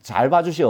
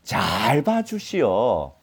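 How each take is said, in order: First: Said in the usual way. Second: Slow, ingratiating plea; drawn-out buttering-up; flattering plea. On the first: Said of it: "어떻게 해달라?". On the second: Acted. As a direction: stretch 잘 out long, begging a favour. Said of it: "미리 아부하는 게".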